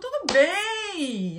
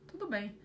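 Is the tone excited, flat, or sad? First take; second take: excited; sad. First: It sounds excited and enthusiastic. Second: It sounds sad and downcast.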